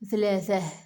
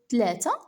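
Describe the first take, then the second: First: The consonants are soft th sounds. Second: The consonants are hard t sounds. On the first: The speaker is older or from the surrounding region. "ont tendance à prononcer les interdentales" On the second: The speaker is from the other Oujda groups. "alors que les autres Oujdi disent"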